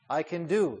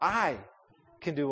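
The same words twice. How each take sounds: First: The word "do" carries the stress. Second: The word "I" carries the stress. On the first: There is work involved. "There's work to be involved" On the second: The speaker personally is the one able. "put the emphasis on me, I, me. Name yourself"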